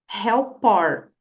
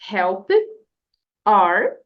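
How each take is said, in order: First: The two words are linked into one. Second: The two words are said separately.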